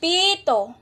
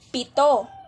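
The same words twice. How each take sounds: First: The i vowel is drawn out long. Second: The i vowel is kept short. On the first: It means a whistle. "sa salitang pito ay pinahaba ang patinig na i" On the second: It means the number seven. "sa pito ay pinaikli ang patinig na i"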